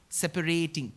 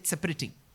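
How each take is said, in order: First: The word is said with two stresses. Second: The word is said with only one stress. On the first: The speaker calls it right. "Two stresses you have to give" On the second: The speaker calls it wrong. "You should not say separating"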